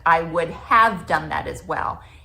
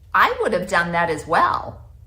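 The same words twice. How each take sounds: First: The word after 'would' is a full 'have'. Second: The word after 'would' sounds like 'of'. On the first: The speaker calls it right. "instead of" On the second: The speaker calls it wrong. "people say of when they mean have"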